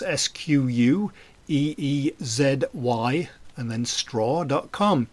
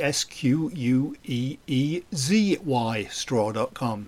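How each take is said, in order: First: The letter Z is said as zed. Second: The letter Z is said as zee.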